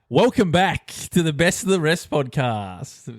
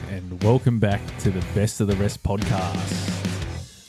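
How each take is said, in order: First: It is said loudly with high energy. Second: It is said with fairly low energy.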